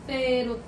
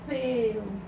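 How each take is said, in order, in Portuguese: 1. A primeira consoante é um som de th, com a língua entre os dentes. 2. A primeira consoante é um som de th, com a língua entre os dentes.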